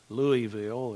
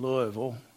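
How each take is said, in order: First: The name is said the Northern outsider way. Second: The name is said the local Southern way. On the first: It is how Northerners say the name. "or Louisville, if there's any Yankee blood floating around" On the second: It is how locals say the name. "I grew up in Louisville"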